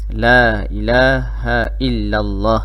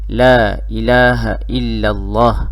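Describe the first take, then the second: Both takes have the same delivery.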